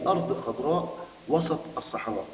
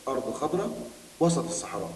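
The two takes are said the same way.

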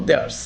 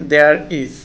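First: "theirs" run into one syllable; contracted form. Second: Said in the usual way. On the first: Shown as a demonstration. Teacher shortens there is for learners, "theirs" as one syllable. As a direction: say "theirs" as a single short word. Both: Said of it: "আমরা সংক্ষেপে বলবো".

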